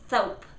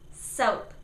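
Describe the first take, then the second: First: The s is lisped with the tongue between teeth. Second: The s is a clear hiss behind the teeth. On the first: The speaker calls it wrong. "puts their tongue outside their mouth when they say S like this" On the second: The speaker calls it right. "It's behind your teeth"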